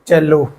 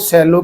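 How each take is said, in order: First: The word begins with a ch sound. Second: The word begins with an s sound. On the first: The speaker calls it right. "पढ़ेंगे चेलो" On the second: The speaker calls it wrong. "सेलो की बजाय"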